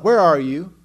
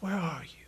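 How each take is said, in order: First: It is said in a harsh tone. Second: It is said in a sweet tone.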